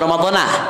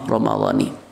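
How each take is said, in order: First: The word ends with an 'a' sound. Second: The word ends with an 'i' sound. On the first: The speaker calls it wrong. "itu termasuk salah kaprah tuh di mana-mana" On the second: The speaker calls it right. "yang betul secara bahasa adalah"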